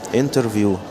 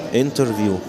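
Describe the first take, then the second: Both takes have the same delivery.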